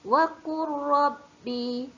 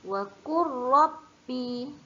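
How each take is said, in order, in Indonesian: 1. Bunyi l menyatu sepenuhnya ke dalam r. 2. Bunyi l menyatu sepenuhnya ke dalam r.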